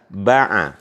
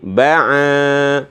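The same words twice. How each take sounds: First: Both vowels are short. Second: Only the second vowel is long. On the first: "tidak ada alifnya dua-duanya" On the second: "kalau di sini yang panjang a-nya"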